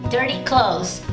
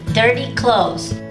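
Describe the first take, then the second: Both takes have the same delivery.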